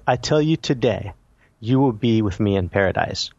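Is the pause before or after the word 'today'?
after. The pause comes after the word today.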